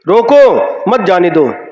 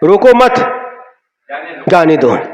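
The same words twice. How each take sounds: First: The pause comes right after the first word. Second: The pause comes right after the second word. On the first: Stop the person; do not let them leave. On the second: Do not stop the person; let them leave.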